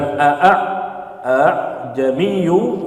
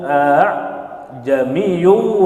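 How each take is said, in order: First: The second hamza is said clearly and fully. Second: The second hamza is softened, sounding like h. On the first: The speaker calls it wrong. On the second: The speaker calls it right. "Itu tashil"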